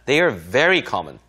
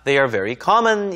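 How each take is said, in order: First: The word very is clearly stressed. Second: The word very is not stressed. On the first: The speaker calls it right. "very라고 하는 단어는 강조어죠. 항상 강세를 주시는 게 좋습니다" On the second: The speaker calls it wrong. "이라기보단"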